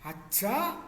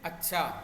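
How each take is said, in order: First: It is said sounding surprised. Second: It is said plainly, sounding accepting. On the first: The speaker is astonished. "तो आश्चर्य है" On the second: The speaker agrees or accepts. "तो वो स्वीकृति बोधक है"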